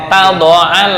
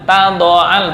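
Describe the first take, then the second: No difference in how they are said.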